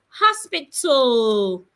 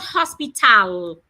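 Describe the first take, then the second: First: The final A sounds like uh. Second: The final A sounds like ah. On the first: The speaker calls it right. "the A before the L sounds uh" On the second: The speaker calls it wrong. "not ah"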